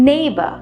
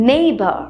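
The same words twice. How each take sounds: Both takes have the same delivery.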